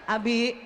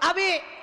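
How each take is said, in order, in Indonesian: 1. Nama Abi dipanggil dengan nada normal. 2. Nama Abi dipanggil dengan nada sangat tinggi. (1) "satu kali nggak naik" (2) "Yang ketiga tujuh oktav"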